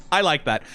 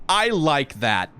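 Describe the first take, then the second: First: Said in the usual way. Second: Drawn out, very slow approval; slow savoring. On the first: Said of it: "repeated approval". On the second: Shown as a demonstration. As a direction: stretch each word, savoring it. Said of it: "repeated approval, drawn out".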